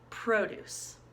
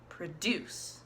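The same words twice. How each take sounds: First: The stress is on the first syllable. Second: The stress is on the second syllable. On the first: It is a noun meaning fruit and vegetables. "the accent was in the first syllable on pro" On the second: It is a verb meaning to make something. "the accent was on the second syllable of deuce"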